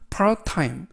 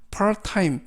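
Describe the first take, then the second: Both takes have the same delivery.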